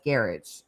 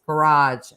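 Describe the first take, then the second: First: GARAGE as garridge, stressed on the first syllable; British garage. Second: GARAGE stressed on the second syllable; American garage. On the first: Streamer quoting best friend's new habit, British GARAGE. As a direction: make GARAGE rhyme with carriage, British-style. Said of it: "says garage as garage". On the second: Streamer telling of best friend's new habit, American GARAGE first. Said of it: "My best friend now says garage as garage". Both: Shown as a demonstration.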